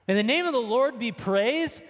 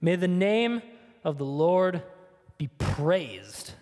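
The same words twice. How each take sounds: First: Repeated back in disbelief, rising; as if you can't believe he said it; incredulous echo. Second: Said in the usual way. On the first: Retold or imitated. Preacher echoing Job's words to the congregation in disbelief.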